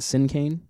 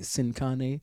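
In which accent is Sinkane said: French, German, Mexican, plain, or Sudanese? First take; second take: plain; Mexican. First: It is said in a plain everyday accent. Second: It is said with a Mexican Spanish accent. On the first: This is the band's own usual pronunciation. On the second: This is how people in Mexico say it.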